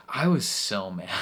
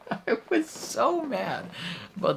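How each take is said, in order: First: Louder, emphatic frustration; mad. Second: Laugh, then wail it in comic fury; exasperated mad. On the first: Viewer mad about the gardener being killed, emphatic frustration. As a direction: lean hard on the feeling. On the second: Viewer mad about the gardener being killed, squealed exasperation. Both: Real, not acted.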